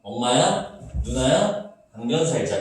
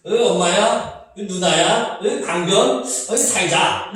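First: 강변 살자 kept together as one beat; light, rhythmic three-part phrasing; three-beat reading. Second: Higher-pitched principal-style recital with a grunted 으 before each word; four separate beats, 강변 split from 살자; pompous old-fogey chant, pausing after each word; stuffy four-beat reading. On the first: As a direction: read 엄마야, 누나야, 강변 살자 in three groups. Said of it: "어떻게 읽는 거야?". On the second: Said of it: "교장 선생님 말투 같지 않아?". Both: Shown as a demonstration.

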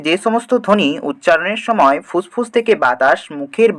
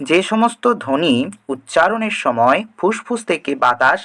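First: Said in the usual way. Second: Slower, spelling out the definition; slow repeat. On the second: Shown as a demonstration. Teacher repeating the definition for students, slowly. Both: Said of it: "তাহলে কি বলছে?".

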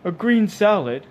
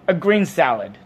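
First: Slow, high, loud incredulous echo; high-pitched, scornful disbelief; disapproving. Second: "A green salad," firm, louder and higher; louder, decided "A green salad"; emphatic. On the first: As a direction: query it with disdain, drawn out. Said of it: "rolling his eyes disapprovingly at Arthur". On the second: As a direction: insist firmly on "green salad". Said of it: "said Arthur emphatically". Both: A narrator's reading.

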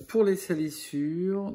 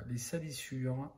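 First: Higher, louder and slow, like a section title; loud announcing. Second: Said in the usual way. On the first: Real, not acted. Painter announcing the grime step to his viewers, loud and slow. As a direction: call out the next step to the viewers.

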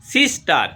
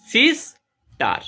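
First: Said in the usual way. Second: sister as সিস ... টার, first beat high, slow; split into syllables. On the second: Shown as a demonstration. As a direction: break sister into two separate beats. (Sister দুই ভাগে ভেঙে, ধীরে) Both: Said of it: "দুটো syllable".

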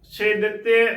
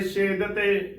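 First: ਛੇ ਦਿੱਤੇ with short i and doubled t; ਛੇ ਦਿੱਤੇ as "she dit-te"; split as "chhe ditte". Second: ਛੇਦ ਤੇ with no i and a single t; ਛੇਦ ਤੇ as "shed-te"; run together as "chhed te". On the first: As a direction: say ਛੇ apart, then ਦਿੱਤੇ. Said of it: "ਉਚਾਰਨ ਕਰਨਾ ਹੈ". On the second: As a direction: close ਛੇਦ on the d, then ਤੇ. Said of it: "ਨਹੀਂ ਕਰਨਾ". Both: Shown as a demonstration.

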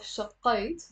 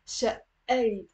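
First: شقيت with a hard qaf; شقيت said the wrong way, q sounded; wrong pronunciation. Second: شقيت with a doubled, pressed consonant; شقيت, press on the shadda; right pronunciation. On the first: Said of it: "we're not pronouncing the قاف". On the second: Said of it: "there is a shadda on the". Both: Shown as a demonstration.

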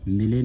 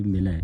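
First: ਮਿਲੇ with a closed "ay" ending; wrong vowel. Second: ਮਿਲੈ with an open "ae" ending; correct vowel. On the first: Teacher shows the misreading, ਮਿਲੇ with closed e. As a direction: end ਮਿਲੇ on a narrow e. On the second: Teacher corrects the reading, ਮਿਲੈ with open ai. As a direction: widen the end of ਮਿਲੈ to ai. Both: Shown as a demonstration. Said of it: "ਮਿਲੇ ਨਹੀਂ ਪੜ੍ਹਨਾ".

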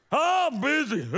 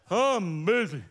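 First: Busy blurted out loud and high; mock frazzled. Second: Busy through a laugh. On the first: Pastor acting a frantic churchgoer, loud busy. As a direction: throw it out like you're swamped. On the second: Pretend. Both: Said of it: "we're like".

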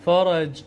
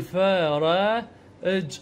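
First: Said in the usual way. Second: "فر، اج" slowly in separate pieces; sounding out. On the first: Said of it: "بهذا الشكل الفظ". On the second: Shown as a demonstration. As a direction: draw out "فر" before a short closed "اج". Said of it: "او اقول".

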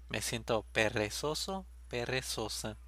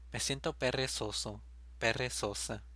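No difference in how they are said.

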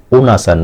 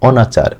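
First: "অনাচার" said as oh-nachar; rejected o-vowel. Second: "অনাচার" begun with open "aw"; open initial vowel. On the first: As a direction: round the first vowel of "অনাচার" to "oh", the wrong form. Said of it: "অনাচার না". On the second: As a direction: say "অনাচার" as aw-nachar, slowly. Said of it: "অই থাকবে". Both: Shown as a demonstration.

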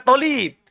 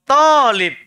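First: "tolib" with a rounded o in place of the long a; mispronounced Arabic. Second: "Talib" with a long open a, said firmly and a bit louder; correct Arabic long a. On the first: Teacher repeats a student's error: "tolib" with an o. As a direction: echo the student's wrong "tolib" with an o sound. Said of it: "bukan tolib". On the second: Teacher corrects a student: "Talib" with a long a, not o. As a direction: stretch the a in "Talib" and land it clearly. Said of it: "Kasih pas panjang pendeknya". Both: Shown as a demonstration.

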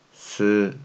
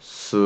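First: す with the spread-lipped Korean eu vowel; Korean unrounded u. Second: Said in the usual way. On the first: Shown as a demonstration. Teacher models Korean syllables for learners, す with unrounded eu. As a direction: say す without rounding the lips. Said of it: "発音がないですね". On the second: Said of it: "日本語にもありますね".

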